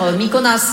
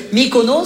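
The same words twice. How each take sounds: First: Mykonas with an a sound at the end; Mykonas, last vowel turned to a; vowel swapped. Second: Said in the usual way. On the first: Shown as a demonstration. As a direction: say Mykonas, the typo version. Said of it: "ça peut rapidement faire". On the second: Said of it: "Voyelle, ça change tout le sens".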